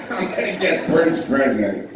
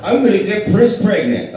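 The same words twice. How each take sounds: First: Tracy Morgan line. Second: Higher and louder, hitting the joke; punchline, louder. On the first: Retold or imitated. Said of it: "Tracy Morgan did not say that". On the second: Shown as a demonstration. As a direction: deliver the line big for the recording. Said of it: "Okay, we got that one".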